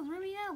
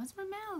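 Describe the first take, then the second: First: "Remio" in three syllables, REM-ee-oh, high-pitched; mock back-and-forth argument. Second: "Rimmel" stressed on the second syllable, ruh-MEL, high-pitched; mock back-and-forth argument. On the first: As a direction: answer back playfully, saying "Remio" as REM-ee-oh. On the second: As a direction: bicker playfully, saying "Rimmel" as ruh-MEL. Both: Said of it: "we were just going back and forth".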